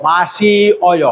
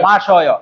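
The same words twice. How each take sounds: First: মাসি অয় in slow separate parts; মাসি, slight break, then অয়; uncontracted form. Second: মাসয় run together as ma-syo-yo; contracted pronunciation. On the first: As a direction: keep the i of মাসি apart from অয়. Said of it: "ই আর অ এখানে মিলে". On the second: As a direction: blend i and o into one sound in মাসয়. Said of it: "আমরা এটাকে উচ্চারণ করবো". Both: Shown as a demonstration.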